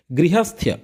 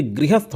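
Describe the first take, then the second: First: गृहस्थ्य with a "ya" glide on the end; confusing wrong form. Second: गृहस्थ ending cleanly on "sth"; correct form demonstrated. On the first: Teacher shows the form that confuses students, confusing wrong form. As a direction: say गृहस्थ्य as gri-hasth-ya. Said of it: "वहाँ confusion create करता है". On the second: Teacher gives students the correction, correct form demonstrated. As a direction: say गृहस्थ as gri-hasth, no ya. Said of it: "जबकि गृहस्थ होता है". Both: Shown as a demonstration.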